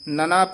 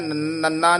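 First: The middle consonant is light and soft. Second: The middle consonant is doubled and heavy. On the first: The speaker calls it right. "ਨਨਾ ਪੋਲਾ ਬੋਲਣਾ ਹੈ" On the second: The speaker calls it wrong. "ਨੰਨਾ ਨਹੀਂ ਕਹਿਣਾ ਹੈ"

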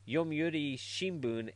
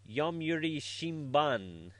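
First: The last syllable has an 'oo' vowel. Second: The last syllable has an 'a' vowel. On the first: The speaker calls it right. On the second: The speaker calls it wrong.

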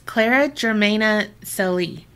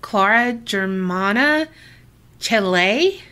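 First: The name is said in a Southern English accent. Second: The name is said in a different accent. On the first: "that was like the Southern English way to say it" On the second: "some other people said"

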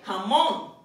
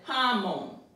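First: The stress is on the last syllable. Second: The stress is on the first syllable. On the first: The speaker calls it right. "we don't pronounce it that way, jamón" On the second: The speaker calls it wrong. "It would have been jamón"

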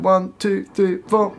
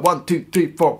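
First: The count is spoken at a slower tempo. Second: The count is spoken at a fast tempo.

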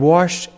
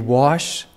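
First: The word has an R sound, like warshed. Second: The word has no R sound. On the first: The speaker calls it wrong. "I have a Kansas accent. We put an R in wash" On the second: The speaker calls it right. "I'll try to say it correctly"

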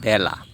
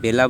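First: The first vowel sounds like 'a' in cat. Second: The first vowel sounds like 'e' in bed. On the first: The speaker calls it right. "আমরা বলি বেলা" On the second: The speaker calls it wrong. "আমরা কি বেলা বলি না"

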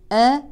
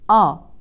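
First: The opening vowel sounds light and thin. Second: The opening vowel sounds heavy and thick. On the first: The speaker calls it right. "ننتبه لترقيق الهمزة" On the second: The speaker calls it wrong. "هذا خطأ"

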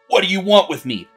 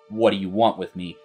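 First: The question is asked in an agitated voice. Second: The question is asked in a calm voice. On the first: The tone does not fit the scene. The speaker calls it wrong. "the AI may say it like" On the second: The tone fits the scene. The speaker calls it right. "calmly ask"

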